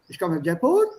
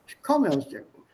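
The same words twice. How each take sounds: First: The voice rises at the end. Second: The voice falls at the end. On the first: The speaker calls it wrong. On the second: The speaker calls it right. "It falls at the end"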